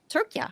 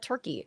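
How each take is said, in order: First: It is said as the Turkish name Türkiye. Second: It is said as the English word Turkey. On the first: This is the name the people themselves use. The speaker calls it right. "they've always pronounced it Turkey" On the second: This is the name foreigners use. The speaker calls it wrong. "it's just Americans. We fuck everything up and we call it Turkey"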